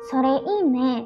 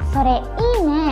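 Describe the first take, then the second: First: It is said flatly, without enthusiasm. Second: It is said cheerfully, with lively enthusiasm. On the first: The speaker calls it wrong. "jangan diucapkan seperti itu ya" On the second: The speaker calls it right. "dengan ceria dan semangat"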